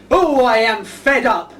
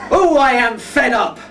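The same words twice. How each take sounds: First: Slow, drawn-out mock misery; mock fed-up sigh. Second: Slow, laughing mock lament; hammed-up fed-up moan. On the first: Shown as a demonstration. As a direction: moan it slowly like a sulking clown. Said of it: "can you lot yell out". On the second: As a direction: sigh it out slowly, milking the cue. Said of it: "Can we try it?".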